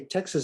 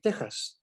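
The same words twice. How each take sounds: First: It is said with an English pronunciation. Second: It is said with a Spanish pronunciation. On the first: "you say Texas in English" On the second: "in Spanish, you would pronounce it Texas"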